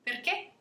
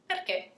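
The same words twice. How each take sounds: First: PERCHÉ as a question, pitch jumping high at the end; question intonation. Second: PERCHÉ as "because", without the questioning lift; answer intonation. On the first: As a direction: ask "Perché" with a sharp upward lift. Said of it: "the intonation is essential in Italian". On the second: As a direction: say "Perché" as an answer, pitch falling. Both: Shown as a demonstration.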